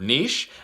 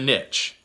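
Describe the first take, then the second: First: The word does not rhyme with rich. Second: The word rhymes with rich. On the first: "some people pronounce that word niche. If I pronounce it that way, obviously it doesn't rhyme" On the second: "get rich in a niche"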